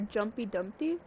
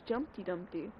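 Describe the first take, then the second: First: The first word has no T sound. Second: The first word has a T sound. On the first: The speaker calls it right. "Or Jumpy Dumpty?" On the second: The speaker calls it wrong. "I always thought there was a T in Jumpy"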